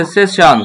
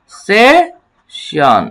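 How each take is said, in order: First: Said in the usual way. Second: session drawn out very slowly for the class; very slow model word. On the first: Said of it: "উচ্চারণটা কি দাঁড়াচ্ছে?". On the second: Shown as a demonstration. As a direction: stretch session long and even. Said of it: "কি দাঁড়াচ্ছে?". (খুব ধীরে টেনে বলা)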